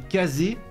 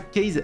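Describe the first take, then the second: First: The name ends with an 'ay' vowel sound. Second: The name ends with a consonant sound. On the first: The speaker calls it right. "c'est Kazé" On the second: The speaker calls it wrong. "c'est pas Case"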